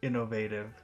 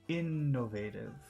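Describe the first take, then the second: First: The word is said plainly, without extra emphasis. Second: The word is said with strong, focused emphasis. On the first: "normal innovative" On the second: "focus innovative"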